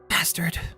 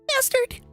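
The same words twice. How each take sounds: First: It is said in a normal voice. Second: It is said in a high, squeaky voice.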